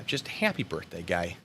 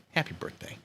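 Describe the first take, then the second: First: Said in the usual way. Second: Soft unvoiced whisper. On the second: Shown as a demonstration. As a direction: whisper it like a secret.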